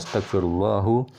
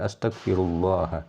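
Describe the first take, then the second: First: Allah ends with a u vowel. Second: Allah ends with an a vowel. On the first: The speaker calls it wrong. "tidak boleh astaghfirullahu" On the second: The speaker calls it right. "Jadi astaghfirullah"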